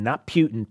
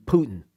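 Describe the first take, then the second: First: "Putin" said as PYOO-tin, the wrong way; mock wrong pronunciation. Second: "Putin" said as POO-tin with no y sound; right pronunciation. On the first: Correcting the co-host's PYOO-tin pronunciation. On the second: Showing the co-host the POO-tin pronunciation. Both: Shown as a demonstration. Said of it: "you're saying Putin".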